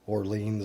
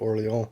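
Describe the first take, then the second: First: The name is said with an American pronunciation. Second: The name is said with a French pronunciation. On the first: "like New Orleans or something, is how we say it here in the U S" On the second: "is more of the proper French pronunciation"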